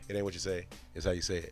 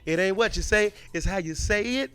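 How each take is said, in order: First: It is said low and flat, sounding bored. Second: It is said with lively, animated energy. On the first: The speaker calls it wrong. "when your voice was like lower and you were boring" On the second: The speaker calls it right. "make it animated"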